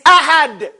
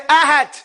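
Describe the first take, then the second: First: The final consonant sounds like a d. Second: The final consonant sounds like a t. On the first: The speaker calls it right. "It's ahad" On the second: The speaker calls it wrong. "If you get on that teeth, it's going to sound like a T"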